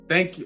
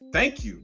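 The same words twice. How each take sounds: First: The thanks is said in a sarcastic tone. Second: The thanks is said in a sincere tone. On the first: The thanks is not really meant. "the first thank you to my biological dad, that was like sarcastic" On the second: The thanks is truly meant. "This one is like a real thank you"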